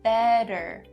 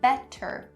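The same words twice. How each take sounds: First: The middle consonant is a quick flap d. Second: The middle consonant is a clear t sound. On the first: The speaker calls it right. "change that T to a flap D sound" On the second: The speaker calls it wrong. "we don't say better"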